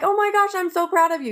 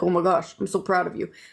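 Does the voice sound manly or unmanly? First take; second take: unmanly; manly. First: The voice sounds light and not manly. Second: The voice sounds gruff and very manly. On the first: The speaker calls it wrong. "he didn't say it like that" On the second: The speaker calls it right. "he was very manly"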